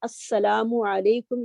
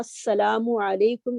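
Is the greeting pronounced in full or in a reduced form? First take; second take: full; full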